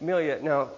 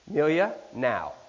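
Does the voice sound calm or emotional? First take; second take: calm; emotional. First: The voice is calm and reasoning. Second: The voice is charged with strong emotion. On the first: This is a rational appeal. The speaker calls it wrong. "let me reason with you here" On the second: This is an emotional appeal. The speaker calls it right. "Is there emotion in my voice?"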